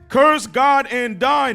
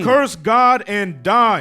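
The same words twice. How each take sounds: First: It is read in a put-on imitation voice. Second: It is read in a plain, ordinary voice.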